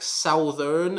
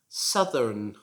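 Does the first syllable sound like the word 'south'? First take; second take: yes; no. First: The first syllable sounds like 'south'. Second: The first syllable does not sound like 'south'. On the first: The speaker calls it wrong. "It should not be pronounced like southern, as I sometimes hear" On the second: The speaker calls it right. "this word should be pronounced southern"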